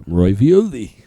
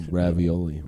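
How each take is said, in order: First: Ravioli said as roy-vi-oli; silly mispronunciation. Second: Said in the usual way. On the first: Shown as a demonstration. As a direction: Ravioli with a Roy sound at the start. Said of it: "that goes in your Chef Boyardee Roy".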